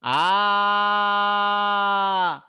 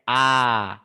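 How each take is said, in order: First: The vowel is drawn out extra long, like calling. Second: The vowel is drawn out to a long length. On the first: "इतना लंबा, जो दीर्घ से भी ज्यादा लंबा है" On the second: "सबको खींच के"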